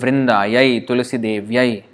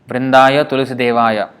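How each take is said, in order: First: The words end in an 'ayai' sound. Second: The words end in a plain 'aya' sound. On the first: The name is treated as female. The speaker calls it right. "Yai is for female" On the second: The name is treated as male. The speaker calls it wrong. "sometimes I see the devotees pronounce it wrongly"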